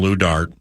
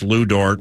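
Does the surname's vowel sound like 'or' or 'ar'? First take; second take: ar; or. First: The surname has an 'ar' vowel. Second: The surname has an 'or' vowel. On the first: "call him Lou Dart" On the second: "you can mispronounce Lou Dort"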